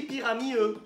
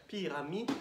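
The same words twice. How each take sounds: First: "pyramide E" said as "pyrami-eu", D dropped; wrong ending demonstrated. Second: "Pyramide" broken before a separate final "de"; final D demonstrated. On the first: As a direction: end "pyramide E" on a bare "eu", no D. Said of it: "Est-ce que j'ai dit pyramide E". (fausse version « pyrami-eu », sans D) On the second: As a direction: hold back, then release the "de" of "Pyramide". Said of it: "Regardez bien". (« Pyrami…de », D final bien détaché) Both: Shown as a demonstration.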